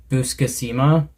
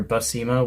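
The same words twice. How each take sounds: First: Buscema with an extra syllable, roughly boos-kuh-SEE-muh; unsure pronunciation. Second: Buscema in three syllables, roughly buh-SEE-muh; alternative pronunciation. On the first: Host guessing at an artist's surname, Buscema as boos-kuh-SEE-muh. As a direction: say Buscema in four syllables, rising at the end. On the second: Host correcting an artist's surname, Buscema as buh-SEE-muh. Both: Shown as a demonstration. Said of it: "however you pronounce it".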